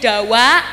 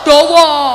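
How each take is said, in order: First: The vowels are said as open a sounds. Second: The vowels are said as rounded o sounds. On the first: "kalau ngapak itu biasanya diakhiri a" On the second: "Kalau Surabaya nggen kula o"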